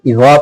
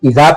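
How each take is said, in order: First: The first consonant is a heavy emphatic z. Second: The first consonant is a plain z sound. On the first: "बारीक पढ़ने की जगह मोटा पढ़ देंगे" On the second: "जबान की नोक दांतों के किनारे को नहीं लगाएंगे ... जा अदा हो जाएगा"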